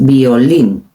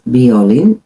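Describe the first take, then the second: First: "violín" slowly, as vi-o-LIN; "violín" with a drawn-out, stressed -lín; accent on last syllable. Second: "violín" stressed as VI-o-lin; "violín" with an unstressed last syllable; wrong early stress. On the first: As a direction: lean hard on the end of "violín". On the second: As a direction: put the weight on the front of "violín". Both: Shown as a demonstration. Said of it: "Also with accent".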